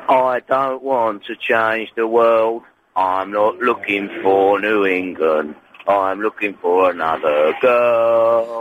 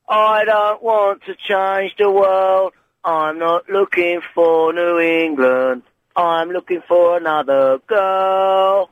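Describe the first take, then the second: First: It is said in a very deep voice. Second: It is said in a higher-pitched voice.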